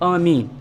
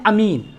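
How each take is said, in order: First: The first vowel is long. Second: The first vowel is short. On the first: "सही लफ्ज़ क्या है" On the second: "अलिफ पर हम हम सिर्फ फतहा दें"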